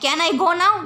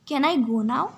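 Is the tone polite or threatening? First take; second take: threatening; polite. First: It is said in a harsh, threatening tone. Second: It is said in a soft, polite tone. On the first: The speaker is making a threat. The speaker calls it wrong. "ऐसे थोड़े बोलेंगे can I go now, ये तो धमकी हो गई" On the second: The speaker is politely asking permission. The speaker calls it right. "हम polite वे में बोलेंगे"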